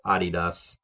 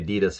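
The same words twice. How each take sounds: First: It is said with a German pronunciation. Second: It is said with an American pronunciation. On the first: "but it's Adidas" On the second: "we say Adidas here in America"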